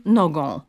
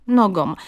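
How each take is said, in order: First: NOGĄ with a final nasal vowel instead of -om; reverse error, nasal ending. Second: NOGĄ said as nogom, with clear m, slow; model -om ending. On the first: Linguist demonstrates hypercorrection, nasal ą in "nogą". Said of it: "samogłoską nosową". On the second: Linguist gives the model form, "nogą" ending in -om. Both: Shown as a demonstration.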